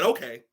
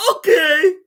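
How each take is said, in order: First: Said in the usual way. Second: High, loud squeal; mock eager compliance. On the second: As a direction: chirp it like a gullible follower. Mocks a blindly obedient follower.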